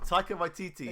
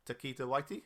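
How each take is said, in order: First: "Taika Waititi" said as "TIE-kuh why-TEE-tee"; corrected pronunciation. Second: "Taika Waititi" garbled as "Takita-Waiti"; mispronounced name. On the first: Podcaster repeating co-host's correction, properly pronounced. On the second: Unsure podcaster trying an actor's name, mispronounced. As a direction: say "Taika Waititi" wrongly, like "tuh-KEE-tuh-WHY-tee". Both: Real, not acted. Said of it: "you butchered that name".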